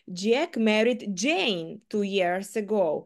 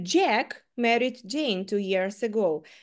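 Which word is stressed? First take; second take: Jane; Jack. First: The stress is on the word Jane. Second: The stress is on the word Jack. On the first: It was Jane, not someone else, whom Jack married. "Джек одружився саме на Джейн 2 роки назад" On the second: It was Jack, not someone else, who married Jane. "в першому випадку я саме зробила наголос на Джеку"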